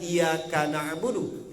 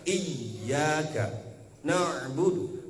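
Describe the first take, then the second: First: The y sound is short and single. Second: The y sound is doubled and pressed hard. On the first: The speaker calls it wrong. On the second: The speaker calls it right. "harus double hurufnya ... harus dihentak"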